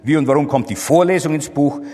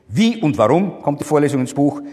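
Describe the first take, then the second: First: The stress is on the word Vorlesung. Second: The stress is on the word Wie. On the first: The question is about the lecture itself. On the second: The question is about the manner.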